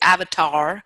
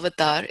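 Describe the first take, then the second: First: It is said with an American English pronunciation. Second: It is said with a Sanskrit pronunciation. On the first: The speaker calls it wrong. "in United States if they say avatar" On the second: The speaker calls it right. "but it's avatar"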